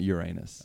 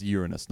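First: Uranus stressed on the middle syllable; Uranus with a long AY in the middle; rejected pronunciation. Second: Uranus stressed on the first syllable; Uranus with a light, unstressed middle; corrected pronunciation. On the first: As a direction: say Uranus as your-AY-nus. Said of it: "not Uranus". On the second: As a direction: say Uranus as YOOR-uh-nus. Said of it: "It's pronounced Uranus". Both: Shown as a demonstration.

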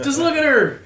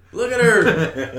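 First: High, loud gushing awe; excited. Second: High, loud, slow laughing awe; excited. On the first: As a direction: rave about her, loud and high. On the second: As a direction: marvel at her, laughing. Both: Retold or imitated. Gushing over Daenerys.

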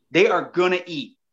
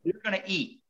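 First: "are" said in full and punched; insist, leaning firmly on "are"; stress on "are". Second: Said in the usual way. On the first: Real, not acted. Angler explaining when fish bite, emphatic stress on "are". Emphatic restatement of same words.

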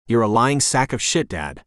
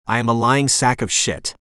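First: Lightly voiced dog calling her owner a liar; a hint of the pet's cheeky voice on "shit"; Tequila voice. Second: Said in the usual way. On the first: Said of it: "I say in my tequila voice". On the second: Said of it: "She's right".

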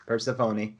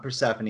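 First: Persephone said as per-seh-FOH-nee; corrected pronunciation. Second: Persephone said as per-SEF-uh-nee; wrong pronunciation. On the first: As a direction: give Persephone a long O in "phone", ending in "nee". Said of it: "it's Persephone". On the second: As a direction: stress the second syllable of Persephone, short vowels after it. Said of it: "I'm pronouncing that correctly, it's not Persephone". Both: Shown as a demonstration.

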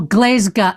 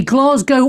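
First: Glasgow as GLEZ-ga, drawn out; local Glasgow pronunciation. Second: Glasgow as GLAHZ-go; standard Glasgow pronunciation. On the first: Host lists accepted versions, Glasgow as GLEZ-ga. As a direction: end Glasgow on "ga", not "go". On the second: Host lists accepted versions, Glasgow as GLAHZ-go. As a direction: finish Glasgow on a clear "go". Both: Shown as a demonstration. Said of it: "only two pronunciations".

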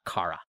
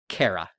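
First: Kara said as "KAH-ra"; Kah-ra pronunciation. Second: Kara said as "CARE-a"; Canadian-style Kara, starting like "care"; Care-a pronunciation. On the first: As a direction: say Kara with an open "ah". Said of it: "not Kara". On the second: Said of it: "Canadian performers are gonna say". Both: Shown as a demonstration.

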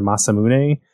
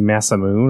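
First: Masamune said as "mah-sah-moo-nay"; Japanese-style pronunciation. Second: Masamune said as "massa-moon"; old Americanized pronunciation. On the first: Correcting a favorite weapon's name, Japanese-style pronunciation. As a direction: sound the final e of Masamune as "nay". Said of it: "we heard them say Masamune". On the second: Explaining a favorite weapon's name, old Americanized pronunciation. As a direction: end Masamune on "moon", no final vowel. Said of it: "I used to say Masamune". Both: Shown as a demonstration.

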